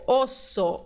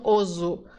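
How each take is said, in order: First: The middle s sounds like s. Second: The middle s sounds like z. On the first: The speaker calls it right. "Aqui você vai dizer jactancioso, osso" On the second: The speaker calls it wrong. "não oso"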